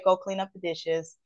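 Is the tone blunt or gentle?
gentle. The tone is soft and affectionate. The request is made kindly to a loved one. "hey, honey, I can still say ... but my tone and texture has kind of like changed"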